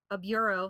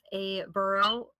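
First: Said in the usual way. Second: "bureau" slipped into "burr-oh"; mispronounced bureau. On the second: Real, not acted. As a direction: stretch out "bureau" slowly, missing its "yoo" glide. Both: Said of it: "sorry, a bureau".

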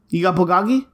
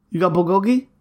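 First: "bulgogi" with an "ah" in the middle, bul-GAH-gee; alternating pronunciation. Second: "bulgogi" with a long "oh", bul-GOH-gee; alternating pronunciation. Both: Retold or imitated. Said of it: "alternating pronunciations like that".

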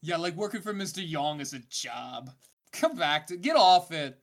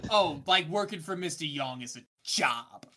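First: Laid-back surfer dude. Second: Put-on Mister Young voice. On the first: Acted. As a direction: play it like a chill surfer. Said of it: "Where's my surfer voice?". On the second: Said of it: "I do not like the voice".

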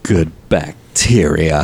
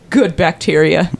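First: Even lower, slower echo of "Good bacteria"; mock solemn. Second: Low, slow mock reverence for "Good bacteria"; mock solemn. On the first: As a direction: repeat "Good bacteria" low and drawn out, hushed. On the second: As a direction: say "Good bacteria" low and slowly, like something sacred. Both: Echoing mockingly.

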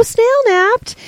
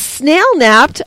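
First: Mock horror, much higher pitch; dramatic high gasp. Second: Said in the usual way. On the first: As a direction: gasp it like a melodrama.

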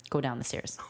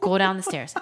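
First: Restrained, low-key order; calm command. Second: Louder, firmer retold order; mad command. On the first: Retold or imitated. Dad sending his child downstairs, calmly. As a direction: order it with anger held in. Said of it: "all calmly". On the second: Dad sending his child downstairs, louder and mad. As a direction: repeat the order with rising anger. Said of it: "then I got really, really mad".

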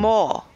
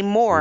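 First: "maw" as "more" with no R at the end; English dropped R. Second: "more" with the final R sounded; Scottish R. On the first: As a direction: drop the R, leaving a long open vowel in "maw". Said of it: "in many parts of England, it would sound more like". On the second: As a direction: say "more" slowly with a clear Scottish R. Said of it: "So in Scotland, we s-, we say more". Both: Shown as a demonstration.

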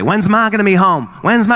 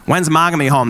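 First: Put-on whiny kid. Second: Said in the usual way. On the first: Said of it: "that question all day". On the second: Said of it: "That's a big one I get".

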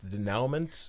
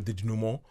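First: Questioning "denouement" with an ow in the middle; wrong pronunciation. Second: French-style "denouement", nasal ending and no t; corrected pronunciation. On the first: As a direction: try "denouement" as de-NOW-ment, sounding the final t. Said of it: "not sure how you say this word". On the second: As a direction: say "denouement" as day-NOO-mo, with a silent t. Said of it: "oh, sorry". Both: Shown as a demonstration.

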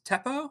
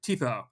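First: Teppo with a short e, TEP-po; wrong vowel. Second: Teepo with a long ee, TEE-po; correct pronunciation. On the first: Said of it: "is it pronounced". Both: Real, not acted.

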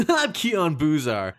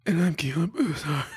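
First: Louder, slow put-on voice; slow, hammed-up character voice; first voice. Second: Higher, slow, tearful put-on voice; whiny crying character voice; second voice. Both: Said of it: "I'm gonna do both my voices".

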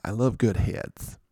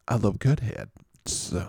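First: Said in the usual way. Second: "heads" with the final s held back, added late; comic pause. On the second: Shown as a demonstration. Host milking a double meaning, late s on "heads". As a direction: say "heads" as head, pause, then a hissed s. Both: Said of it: "funnier if you say it like that".

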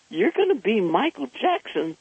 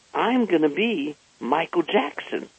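First: Surprised echo. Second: Said in the usual way. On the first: Retold or imitated. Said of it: "And I said, "What?". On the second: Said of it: "He says".

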